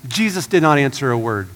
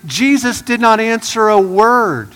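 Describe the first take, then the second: First: Said in the usual way. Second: "Jesus did not answer a word" slowed and leaned on, higher and louder; a dramatic, deliberate reading of "Jesus did not answer a word"; slow emphatic reading. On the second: Shown as a demonstration.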